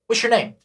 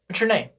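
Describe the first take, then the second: Both takes have the same delivery.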